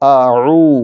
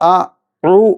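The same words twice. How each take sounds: First: The throat sound between the vowels is softened. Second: The throat sound between the vowels is harsh. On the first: The speaker calls it right. "ഐനെ മയപ്പെടുത്തി ഉച്ചരിക്കണം" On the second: The speaker calls it wrong. "ഉച്ചരിക്കാൻ പാടില്ല"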